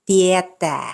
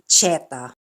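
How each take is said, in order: First: The word begins with a plain t sound. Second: The word begins with a ch sound. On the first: The speaker calls it right. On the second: The speaker calls it wrong. "not cheta"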